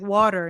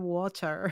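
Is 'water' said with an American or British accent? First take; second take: American; British. First: It is said with an American accent. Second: It is said with a British accent.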